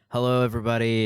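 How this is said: It is said in a put-on deep voice.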